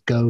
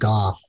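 First: The name rhymes with the word 'go'. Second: The name does not rhyme with 'go'. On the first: The speaker calls it wrong. "I always thought it was Go Street" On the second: The speaker calls it right. "they do pronounce it Gough"

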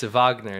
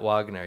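First: The name begins with a V sound. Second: The name begins with a W sound. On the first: The speaker calls it right. "it's Wagner" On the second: The speaker calls it wrong. "not Wagner"

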